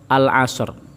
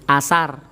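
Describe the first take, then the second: First: The word begins with al before the vowel. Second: The word begins directly with a vowel. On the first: This follows the written Arabic form. The speaker calls it right. "Tetapi yang benar adalah sami kalian tulisan al-asr" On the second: This is another common way of saying it. The speaker calls it wrong. "Ana meneh sing muni asar"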